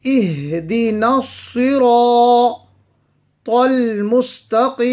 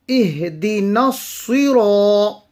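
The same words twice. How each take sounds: First: اهدنا الصراط recited with full ra and long alif, slightly higher; recited melodically. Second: Said in the usual way. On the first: Shown as a demonstration. Teacher reciting the verse for students, melodic. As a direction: chant it with the tajweed applied. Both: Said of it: "will be read full and stretched because of the alif".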